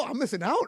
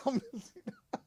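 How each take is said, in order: First: Said in the usual way. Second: Soft laughing repeat. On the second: Real, not acted. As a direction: chuckle the words out quietly. Repeats it laughing, much softer.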